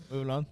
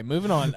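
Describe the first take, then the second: First: Moving on in a thick Tennessee accent; Tennessee drawl. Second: Said in the usual way. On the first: Shown as a demonstration. Joking with co-host about being a Tennessee native, thick Tennessee accent. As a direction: lay on the Tennessee accent, quick and low. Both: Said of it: "you really are a Tennessee native".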